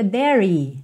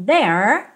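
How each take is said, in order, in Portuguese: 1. A palavra termina com um som de vogal acrescentado. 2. A palavra termina com um som de r de língua enrolada. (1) "Nunca diga there. Não, o último E não é pronunciado" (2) "there termina ali, ó, com a língua enrolada"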